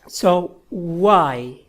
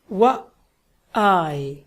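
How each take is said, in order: First: The two sounds are blended into one sound. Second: The two sounds are said apart in rhythm. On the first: "together to make one sound" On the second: "like rhythm"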